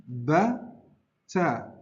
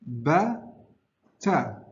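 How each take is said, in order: The two takes are said the same way.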